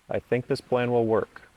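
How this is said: The pitch falls at the end of the sentence. The speaker sounds confident about it.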